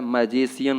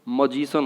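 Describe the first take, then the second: First: The first vowel is an open 'a' sound. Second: The first vowel is a short 'uh' sound. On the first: The speaker calls it wrong. "मैजिशियन नहीं होता है" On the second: The speaker calls it right. "मजिशियन होता है"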